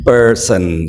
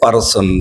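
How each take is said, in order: First: The word is said with English-style sounds. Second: The word is said with Bengali-style sounds. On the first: The speaker calls it right. "But আসলে কিরকম হবে উচ্চারণটা?" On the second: The speaker calls it wrong. "আমরা বাংলায় কি বলি পারসনকে? পারসন, something like this"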